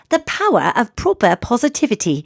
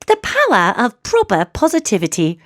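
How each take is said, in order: First: It is said in a Mary Poppins voice. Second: The same.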